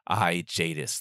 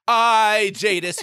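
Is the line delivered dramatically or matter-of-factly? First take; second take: matter-of-fact; dramatic. First: It is said calmly, as if plainly obvious. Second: It is said broadly, with big dramatic flair. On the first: Her greatness is simply taken for granted. "she's saying this as if it's just assumed" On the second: Her greatness is loudly proclaimed. "you could do that"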